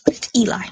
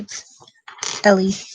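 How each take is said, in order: First: The name starts with a long 'ee' sound. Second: The name starts with a short 'eh' sound. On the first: The speaker calls it right. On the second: The speaker calls it wrong. "Why do I keep saying Ellie?"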